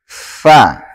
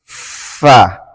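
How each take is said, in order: First: The letter starts with an 'f' sound. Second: The same.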